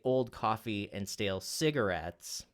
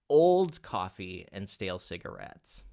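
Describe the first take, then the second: First: The word cigarettes is stressed. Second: The word old is stressed. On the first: The focus is on the idea of the cigarette. "if you accent the cigarettes word" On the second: The coffee is not new. "let's say we accent the word old"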